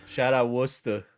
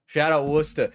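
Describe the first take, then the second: First: Said in the usual way. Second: Put-on Brooklynese accent. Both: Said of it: "I can't help but do, like, a Brooklynese accent".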